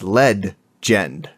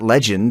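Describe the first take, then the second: First: It is said as led-gend, with an extra d. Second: It is said as the ordinary word legend. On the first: The speaker calls it right. "it's lead-gend" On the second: The speaker calls it wrong. "It's not legend"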